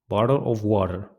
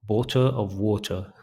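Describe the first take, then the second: First: It is said in an American accent. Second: It is said in a British accent. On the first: "But American accent, we say bottle of water" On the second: "British accent, we say bottle of water"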